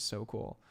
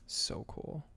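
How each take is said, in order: First: Said in the usual way. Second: Breathy whisper of awe. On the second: Acted.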